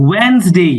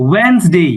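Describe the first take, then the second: No difference in how they are said.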